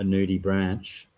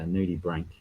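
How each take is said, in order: First: The last word ends with a ch sound. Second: The last word ends with a k sound. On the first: The speaker calls it wrong. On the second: The speaker calls it right.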